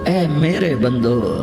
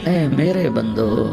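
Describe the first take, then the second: Both takes have the same delivery.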